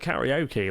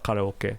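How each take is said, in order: First: It is said with a British English pronunciation. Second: It is said with a Japanese pronunciation. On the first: "I still say karaoke like a British person" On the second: "If I was just speaking Japanese, I would say like karaoke"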